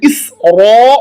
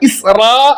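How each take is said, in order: First: The r sound is thick and heavy. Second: The r sound is thin and light. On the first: The speaker calls it right. "റായെ മുഴപ്പിക്കുക" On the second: The speaker calls it wrong. "ഇസ്റാ എന്ന് പറയരുത്"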